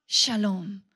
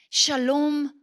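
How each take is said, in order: First: "shalom" dropped low and settled; second "shalom" low and resolved; lower echo. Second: First "Shalom" rising and proclaimed; ringing shalom. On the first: Echo of the doubled word. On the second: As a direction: call out "Shalom" brightly. First of a doubled Hebrew word. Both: Shown as a demonstration.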